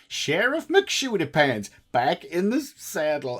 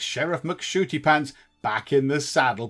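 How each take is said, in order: First: It is said in a put-on accent. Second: It is said in the speaker's plain voice. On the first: "that was awful" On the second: "I said that without an accent"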